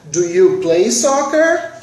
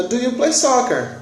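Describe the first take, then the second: First: "Do you play soccer?" slow, with "soccer" rising clearly at the end; rising question tune. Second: "Do you play soccer?" said flatly, falling at the end with no question lift; robotic flat question. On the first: Teacher showing students the missing question curve, slow and rising. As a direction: let the pitch climb on "soccer". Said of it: "Essa curva de entonação ficou faltando".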